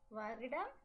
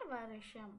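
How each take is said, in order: First: It uses the formal, written-style pronunciation. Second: It uses the colloquial, everyday spoken pronunciation. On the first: This is the form used in writing. "when we write it is வருடம்" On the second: This is the form used in speech. "when we speak it is வருஷம்"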